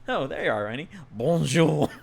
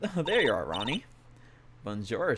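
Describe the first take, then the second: First: It is said in a put-on French accent. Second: It is said in a plain, ordinary accent.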